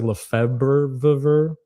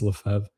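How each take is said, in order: First: Every written letter is sounded out in English. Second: It is said the French way, letters dropped. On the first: This is how the name appears it should sound. The speaker calls it wrong. "It looks like Lefebvre" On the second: This is how the name is actually said. The speaker calls it right. "but it's Lefebvre"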